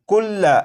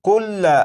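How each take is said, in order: No difference in how they are said.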